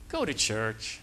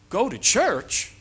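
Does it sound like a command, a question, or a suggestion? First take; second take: suggestion; question. First: It is said as a gentle, advising suggestion. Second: It is said as a questioning, rising request. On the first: The speaker is recommending that you go. "that's a suggestion" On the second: The speaker is asking whether you will go. "it's a question"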